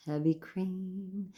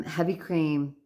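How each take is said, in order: First: Drawn-out, soft musing; savouring. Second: Said in the usual way. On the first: Real, not acted. Vlogger dwelling on a favorite food, savouring it slowly. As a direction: linger softly over the words. Savouring the item just named.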